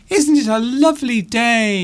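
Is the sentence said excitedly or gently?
excited. It is said with excited, exclamatory energy. The speaker is exclaiming how lovely the day is. "you want to exclaim the fact that you think it's a lovely day"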